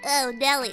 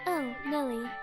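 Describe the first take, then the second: First: A cartoonish, bratty boy's voice. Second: A young man's voice with extra vocal fry. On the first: "Channel my Bart Simpson" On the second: "It needs a little more fry"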